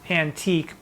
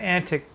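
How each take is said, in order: First: It is said as an-TEEK, with a long ee. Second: It is said as AN-tik, with a short i. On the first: The speaker calls it wrong. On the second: The speaker calls it right.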